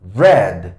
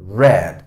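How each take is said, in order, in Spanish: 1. La vocal es corta, rima con 'red'. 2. La vocal es corta, rima con 'red'.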